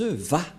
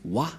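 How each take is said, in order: First: The syllable begins with a V sound. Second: The syllable begins with a W sound. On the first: The speaker calls it right. "Les Juifs le prononcent Va" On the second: This is how people commonly say it. The speaker calls it wrong. "les gens disent Wa. Mais en fait, ce n'est pas Wa, la vraie prononciation"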